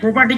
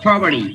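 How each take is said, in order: First: The word has a non-American pronunciation. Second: The word has an American pronunciation. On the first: The speaker calls it wrong. "কি ওরা বলবে না" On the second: The speaker calls it right. "ওরা বলে"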